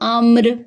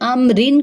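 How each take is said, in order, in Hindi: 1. शब्द एक सादे 'r' की आवाज़ पर रुक जाता है। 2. शब्द के अंत में एक अतिरिक्त 'in' की आवाज़ जुड़ती है। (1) "वो अम्र बन जाएगा" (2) "अमरिन जो था"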